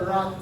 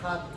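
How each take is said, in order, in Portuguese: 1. O R é falado com a língua levantada. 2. O R é falado do jeito brasileiro. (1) "o R é com a língua pra cima" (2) "não fala o nosso R assim, ó"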